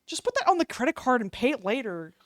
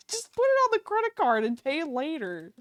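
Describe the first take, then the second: First: Said in the usual way. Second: Higher, sing-song, laughing through it; mock carefree. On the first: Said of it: "repeats it mockingly". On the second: Shown as a demonstration. Streamer joking to viewers about debt, mock carefree. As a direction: sell the bad idea with a giggle. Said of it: "right, guys?".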